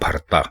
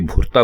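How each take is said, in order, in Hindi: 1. पहला स्वर 'a' जैसा सुनाई देता है। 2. पहला स्वर 'u' जैसा सुनाई देता है। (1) "भे के ऊपर जबर लगाएंगे" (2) "ये भुरता बन जाता है, जिसका कोई मतलब नहीं है"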